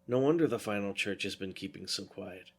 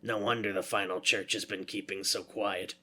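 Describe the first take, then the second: First: It is said without Foolery's character voice. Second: It is said in Foolery's character voice.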